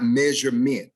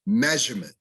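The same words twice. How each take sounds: First: MEASUREMENT as MEZH-er-MENT, full last vowel; overstressed syllables. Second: MEASUREMENT as MEZH-er-mnt, weak ending; first-syllable stress. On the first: Diction teacher showing the error to avoid, overstressed ending. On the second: Diction teacher modelling measurement, first syllable stressed. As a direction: let the end of measurement go unstressed. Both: Shown as a demonstration. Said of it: "not measurement".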